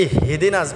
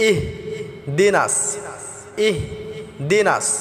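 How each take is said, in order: First: "ইহদিনাস" with an extra vowel, ih-hi-dinas; quick, run-on "ইহদিনাস" as ih-hidinas; mispronounced ihdinas. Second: Slow "ইহদিনাস", breaking after a vowelless h: ih, dinas; "ইহদিনাস" in two separated parts, ih - dinas; correct stopped h. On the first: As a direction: slip a short i after the h in "ইহদিনাস". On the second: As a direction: stop on the h of "ইহদিনাস", then say dinas. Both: Shown as a demonstration. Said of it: "ইহদিনাস হবে না".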